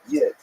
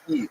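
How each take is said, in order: First: It starts with a y sound and short i. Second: It starts directly on the vowel, no y. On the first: "that's a Lithuanian pronunciation" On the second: "if you lived in Eastern Ukraine, you'd say Yid, like Yiddish, like just without the Y"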